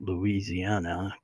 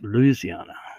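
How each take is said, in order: First: It is pronounced the way outsiders say it. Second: It is pronounced the way locals say it. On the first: The speaker is not from the state. "for those who live outside of Louisiana, you pronounce it Louisiana" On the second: The speaker lives in the state. "but if you live inside, it's Louisiana"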